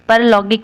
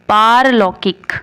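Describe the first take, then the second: First: The first vowel is a short 'a'. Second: The first vowel is a long 'aa'. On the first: The speaker calls it wrong. "परलौकिक नहीं" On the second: The speaker calls it right.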